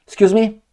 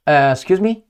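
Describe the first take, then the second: First: Mock surprise. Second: Said in the usual way. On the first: After clearing throat, repeated.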